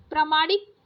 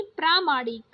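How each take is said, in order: First: प्रामाणिक with a short first a; wrong short first vowel. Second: प्रामाणिक with a long praa; correct long first vowel. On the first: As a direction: say प्रामाणिक as "pruh-maa-nik". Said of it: "प्रामाणिक नहीं". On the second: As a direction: say प्रामाणिक as "praa-maa-nik". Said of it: "आ की मात्रा सारे में लगाइए". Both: Shown as a demonstration.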